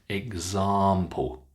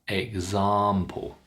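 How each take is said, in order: The two takes are said the same way.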